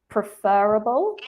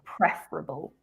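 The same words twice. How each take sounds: First: The stress is on the second syllable. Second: The stress is on the first syllable. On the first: The speaker calls it wrong. "you said preferable" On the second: The speaker calls it right. "the stress is on the first syllable"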